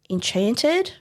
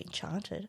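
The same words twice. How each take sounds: First: The word is said in a plain way. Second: The word is said in a sultry way.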